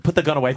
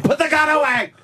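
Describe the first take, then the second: First: Said in the usual way. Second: High frantic yell; panicked shout. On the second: Acted. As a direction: scream it in mock panic. Mock panic, repeated louder.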